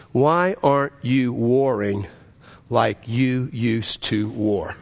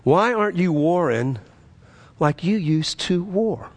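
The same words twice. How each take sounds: First: Slow, low, deliberate delivery; God's solemn question. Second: Pressing question, slowing at the end; God's question repeated. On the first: God questioning the preacher as he drives, slow and solemn. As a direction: weigh each word, sinking lower. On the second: God asking the preacher once more, pointed and insistent. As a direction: press it home, drawing out the last words. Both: Retold or imitated. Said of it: "and God asked me a question".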